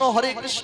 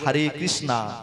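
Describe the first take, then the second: First: It is said clearly, in Bengali pronunciation. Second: It is said with a foreign accent, ending long. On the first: The speaker calls it right. "তারা বলতে পারছে না ভালো করে" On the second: The speaker calls it wrong. "তারা বলে হরে কৃষ্ণা"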